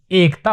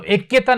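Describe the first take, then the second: First: एकता said as "ekta"; plain correct एकता, "ekta"; correct pronunciation. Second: एक्यता said as "ekkyata"; the wrong form एक्यता, with a doubled k; wrong pronunciation. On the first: Teacher gives the right form, "ekta". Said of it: "एकता होता है". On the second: Teacher names the wrong form for students. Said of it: "एक्यता नहीं होता". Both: Shown as a demonstration.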